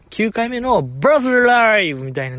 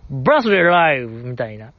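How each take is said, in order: First: バースデーライブ said as English "birthday live", with a rolled-in r, pitched higher; show-off English accent on バースデーライブ, as a joke; mock English pronunciation. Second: Said in the usual way. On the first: (バースデーライブを英語っぽく気取った発音で) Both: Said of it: "発音よく言うボケ".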